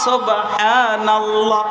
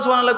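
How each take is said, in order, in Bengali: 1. এটা ধীরে বলা হয়, h-এর শব্দটা স্পষ্ট রেখে। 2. এটা তাড়াতাড়ি বলা হয়, h-এর শব্দটা বাদ দিয়ে। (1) "করবেন আস্তে আস্তে" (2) "তাড়াতাড়ি"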